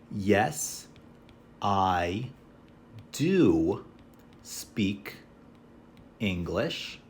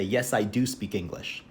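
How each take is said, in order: First: Word by word with pauses; slow model answer. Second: Said in the usual way. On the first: Shown as a demonstration. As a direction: spell out the full answer slowly. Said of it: "So we can say". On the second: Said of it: "So we'll say".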